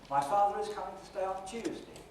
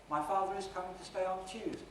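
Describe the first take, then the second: First: It is said as one unbroken phrase. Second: The same.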